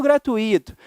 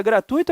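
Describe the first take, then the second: First: "gratuito" as gra-tu-Í-to; misplaced stress on I. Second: "gratuito" as gra-TÚI-to; stress on the U. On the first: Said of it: "num erro chamado silabada". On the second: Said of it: "Tem essas dúvidas?". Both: Shown as a demonstration.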